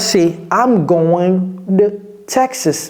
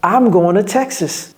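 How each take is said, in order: First: It is said slowly, each middle word clearly heard. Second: It is said fast, the middle words blurred together.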